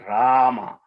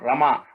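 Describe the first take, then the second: First: The first vowel is drawn out long. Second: The first vowel is short and clipped. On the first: The speaker calls it right. "the old spelling of Rama was R with two or three A's" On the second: The speaker calls it wrong. "It's not Rama"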